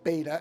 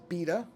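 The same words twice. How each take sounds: First: It is pronounced the American way. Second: It is pronounced the way other countries say it. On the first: "what I call beta" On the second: "in a lot of countries they refer to"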